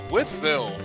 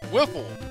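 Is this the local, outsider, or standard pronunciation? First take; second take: standard; local. First: The name is said in the standard way. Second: The name is said in a clipped local way. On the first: "That's pronounced Withville" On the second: "If you're from there, it's pronounced Whiffle"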